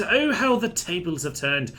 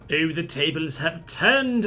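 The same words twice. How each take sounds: First: Higher, louder theatrical crow, leaning on Oh; mock-triumphant villain crow, pitched up; hammed-up gloat. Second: Slow, theatrical gloat, stretching every word; mock-triumphant villain drawl; hammed-up gloat. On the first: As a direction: crow it like a pantomime villain who finally won. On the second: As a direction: savour it like a pantomime villain. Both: Gloating as battle swings his way.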